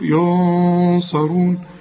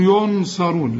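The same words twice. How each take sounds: First: The n sound is hidden and nasalized. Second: The n sound is pronounced clearly. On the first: The speaker calls it right. "ونخفيها" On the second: The speaker calls it wrong. "اوعى تظهرها، اوعى تقول"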